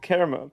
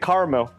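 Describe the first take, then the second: First: The word is said with its full middle syllable. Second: The word is said like 'Carmel', middle syllable dropped. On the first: This is the speaker's own way of saying it. "I say caramel" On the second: This is how someone else says it. "you say caramel ... car, like Carmel, California"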